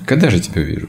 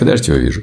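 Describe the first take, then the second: First: It is said eagerly, with lots of energy. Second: It is said lazily, as if falling asleep. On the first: The speaker longs joyfully to see the deity. The speaker calls it right. "столько энергии у них" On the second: The speaker is indifferent and would rather sleep. The speaker calls it wrong. "Не так, что ложиться спать"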